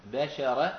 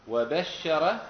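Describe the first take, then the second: First: "بشر" as bashara, single short sheen; light, undoubled sheen. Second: "وبشر" as wa-bashshara, sheen held double and louder; doubled sheen. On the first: Teacher showing students the Tihama form, "بشر" with single light sheen. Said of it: "تهامة يقولون بالتخفيف". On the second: Teacher contrasting the Hijazi form, "وبشر" with doubled sheen. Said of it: "وأهل الحجاز وعامة العرب بإيش؟". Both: Shown as a demonstration.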